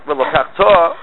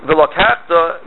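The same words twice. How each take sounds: First: "velokachta" with the final "ta" stressed; stress on last syllable. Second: "Velokachta" with the accent on "kach"; stress before the last syllable. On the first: Teacher citing this week's verse, last syllable stressed. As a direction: put the accent on the "ta" of "velokachta". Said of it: "you stress the last syllable". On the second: Teacher showing the wrong past reading, next-to-last syllable stressed. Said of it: "That's two different things". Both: Shown as a demonstration.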